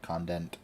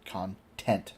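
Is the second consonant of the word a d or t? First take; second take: d; t. First: The word has a d sound in the middle. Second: The word has a clear t sound in the middle. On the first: The speaker calls it wrong. "not condent" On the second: The speaker calls it right.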